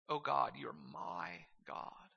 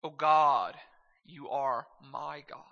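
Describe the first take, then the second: First: Slow and soft, leaning on "my"; stress on "my". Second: Said in the usual way. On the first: Shown as a demonstration. Preacher repeating the psalm's first line, stressing "my". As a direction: set "my" apart with a drawn-out emphasis. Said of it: "I think that my is important".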